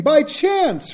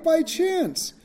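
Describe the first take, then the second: First: "chance" pressed and falling; stress on chance. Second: "By" hit high and first; stress on by. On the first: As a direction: lean on the word "chance", pitch dropping on it. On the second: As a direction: put the weight on "By", then let "chance" fall. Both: Shown as a demonstration.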